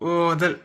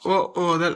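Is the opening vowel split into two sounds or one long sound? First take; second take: one long; two sounds. First: The opening vowel is drawn out as one long sound. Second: The opening vowel is said as two separate sounds. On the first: The speaker calls it right. "இழுத்து படிக்கல ஓதல் ... அப்படி படிக்கணும்" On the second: The speaker calls it wrong. "ஓ ஓதல் அப்படி படிக்கக்கூடாது"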